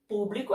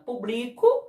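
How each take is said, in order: First: The stress is on the first syllable. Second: The stress is on the second syllable. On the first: It is the noun meaning audience or public. "Público é proparoxítona" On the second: It is the verb meaning I publish. "Publico é paroxítona"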